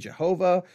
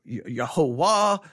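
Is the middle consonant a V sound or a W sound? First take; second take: V sound; W sound. First: The middle consonant is a V sound. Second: The middle consonant is a W sound. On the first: The speaker calls it wrong. "We wouldn't say Jehovah" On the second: The speaker calls it right. "because the V shouldn't have a V sound"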